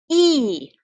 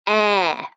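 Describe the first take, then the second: First: "E" said higher and louder as the long vowel; long e sound. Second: "eh" as a short clipped vowel; short e sound. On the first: Teacher showing long E sound "E". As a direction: sing out "E" as its own name. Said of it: "The long sound for E is". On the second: Teacher showing short E sound "eh". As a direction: give "eh" as the short e. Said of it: "my E is making the short sound". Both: Shown as a demonstration.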